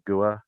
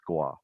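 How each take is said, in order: First: The name is said with two syllables. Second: The name is said with one syllable. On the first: The speaker calls it wrong. "instead of gua" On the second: The speaker calls it right. "one syllable"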